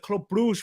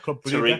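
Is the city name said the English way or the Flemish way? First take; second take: English; Flemish. First: The name ends in a soft 'zh' sound. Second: The name ends in a throaty 'gh' and vowel.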